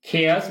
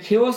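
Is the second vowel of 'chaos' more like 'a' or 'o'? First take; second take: a; o. First: The second vowel sounds like 'a'. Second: The second vowel sounds like 'o'. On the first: The speaker calls it right. "এখানে খেয়াস উচ্চারণ হবে" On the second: The speaker calls it wrong. "এরকম না"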